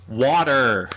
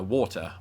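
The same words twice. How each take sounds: First: Loud American "wadder"; loud mock-American outburst; put-on American accent. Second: WATER as "waw-tuh", no R; British-accented WATER. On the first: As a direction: give in and blurt it in an exaggerated American accent. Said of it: "kind of like how with water I had to". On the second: Acted. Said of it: "I pronounce it, of course, water".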